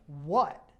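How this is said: It sounds annoyed and confrontational.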